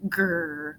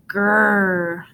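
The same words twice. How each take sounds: First: Soft, low snow monster growl. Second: Fuller, louder monster growl. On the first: Monster hiding behind tree, low quiet growl. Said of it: "A low growling came from behind the tree". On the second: Monster behind tree growling louder at the boys. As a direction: let the growl swell. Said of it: "The sound grew louder". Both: A narrator's reading.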